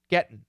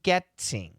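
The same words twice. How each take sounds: First: The T is stopped before a nasal ending. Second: The T is a crisp, released T sound. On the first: "when we say it even faster, we use a stop T schwa N" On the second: "proper English, getting, getting, with a beautiful T sound"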